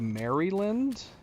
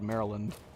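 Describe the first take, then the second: First: The 'Mary' part is given strong emphasis. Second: The 'Mary' part is said lightly, without emphasis. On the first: This is how people outside the country say it. "Like they they put an emphasis on the name Mary" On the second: This is how people from the country say it. "most people I know from the U S just call it Maryland"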